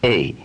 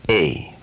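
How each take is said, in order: First: Whispered. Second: Said in the usual way. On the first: Shown as a demonstration. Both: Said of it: "when you pronounce the letter A".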